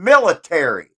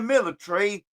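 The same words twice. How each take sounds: First: It is said with an American pronunciation. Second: It is said with a British pronunciation. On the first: "that's how Americans say it" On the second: "Go to the United Kingdom and it's the military"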